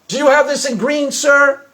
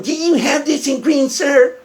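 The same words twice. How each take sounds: First: Said in the usual way. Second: Mock the customer's question back at them; hammed-up mimicry of a customer's question; mocking imitation. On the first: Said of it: "the handicapped kid goes". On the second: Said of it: "And he starts going".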